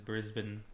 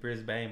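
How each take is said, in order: First: It is said the local Australian way. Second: It is said the way the spelling suggests. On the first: The speaker calls it right. "but it's Brisbane" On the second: The speaker calls it wrong. "I was saying Brisbane"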